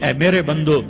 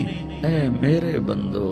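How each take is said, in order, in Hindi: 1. यह सपाट, ठंडे लहजे में कहा गया है। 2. यह गर्म, कोमल लहजे में कहा गया है।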